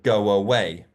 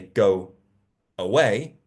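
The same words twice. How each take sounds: First: A w sound links go into away. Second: The two words are said apart without linking. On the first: The speaker calls it right. "we got a W as well" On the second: The speaker calls it wrong. "rather than say"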